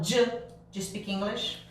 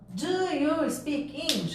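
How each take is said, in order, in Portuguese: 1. 'Do you' vira um som curto 'j'. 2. 'Do you' é dito como duas palavras completas. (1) "Eu falo j" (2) "ao invés de eu falar"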